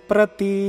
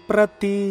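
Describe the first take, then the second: The two takes are said the same way.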